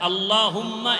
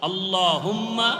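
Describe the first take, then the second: No difference in how they are said.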